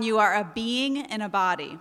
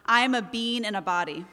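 First: "being" leaned on and clearly said; carefully emphasize the word "being", both syllables sounded; stress on being. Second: "being" squashed into "bean", Jersey style; light Jersey slip on "bean"; Jersey accent. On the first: Shown as a demonstration. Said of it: "I emphasize that word being now". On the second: Retold or imitated. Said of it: "my Jersey accent came out".

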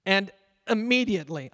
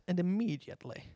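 First: Said in the usual way. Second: English accent. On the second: Shown as a demonstration. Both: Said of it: "I'd like to say it with an English accent".

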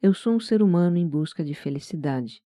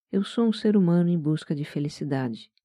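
No difference in how they are said.

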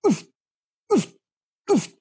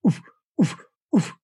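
First: Short "oof" huffs, pitched slightly up; slightly raised inflection. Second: Short, huffed "oof"; low-pitch inflection. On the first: Goose caller showing his next note, slightly higher huffs. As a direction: puff out the second cluck syllable a touch higher. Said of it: "slight difference in the pitch". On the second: Goose caller showing his first note, low-pitched huffs. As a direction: puff out a low cluck syllable. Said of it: "low pitch voice inflection". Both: Shown as a demonstration.

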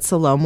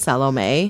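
First: Said in the usual way. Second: Salome said as "SAL-oh-may"; three-syllable pronunciation. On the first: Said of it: "I always thought that Salome was pronounced". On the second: Shown as a demonstration. Co-host shows how she thought the name was pronounced, three-syllable Salome. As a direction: end Salome on a clear "may". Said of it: "was pronounced Salome".

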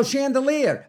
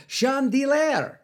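First: "Chandelier" said as the English word, "shan-duh-LEER"; high-pitched dawning "Chandelier", ending in "leer"; sudden realization. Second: "Chandelier" as a drawn-out "shon-dee-LAIR"; mispronounced chandelier. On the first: DJ finally getting the title, "Chandelier" as "shan-duh-LEER". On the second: DJ misreading a song title, "Chandelier" mispronounced as "shahn-dee-lair". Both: Real, not acted. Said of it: "I get it now".

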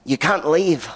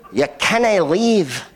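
First: Put-on barely there Scottish accent, pitched higher; half-hearted go at a Scottish accent; attempted Scottish accent. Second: Put-on broad, slow Scottish accent, pitched high. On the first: Manager tells diners they can't go, faint Scottish accent. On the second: Restaurant manager stops diners leaving, hammed-up Scottish accent. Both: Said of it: "That was my Scottish accent".

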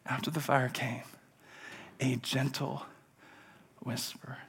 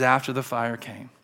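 First: Very soft, with long pauses, fading almost to a whisper; hushed, gentle reading. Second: Said in the usual way. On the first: Acted. Preacher reads of God's gentle whisper after the fire, hushed. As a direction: let each phrase drop away into near silence.

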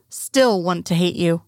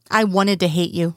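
First: Slow, deflated, half-hearted; less conviction. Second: A touch of vehement force, understated; with vehemence. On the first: Nathan admitting to Duke, slow and unconvinced. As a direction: let the conviction drain out slowly. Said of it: "he says with less conviction". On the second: Nathan confessing to Duke, a mild hint of vehemence. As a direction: push the words out with mild conviction. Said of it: "with vehemence". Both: A narrator's reading.

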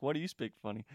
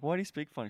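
First: Lightly mimicked Manchester English accent; imitated English accent. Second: Said in the usual way. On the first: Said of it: "she has this English accent". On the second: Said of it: "I'm like".

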